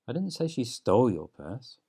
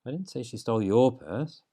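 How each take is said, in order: First: The stress falls on the word 'stole'. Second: The stress falls on the word 'your'.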